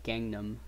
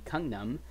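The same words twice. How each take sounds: First: It is said in an American pronunciation. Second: It is said in a non-American pronunciation.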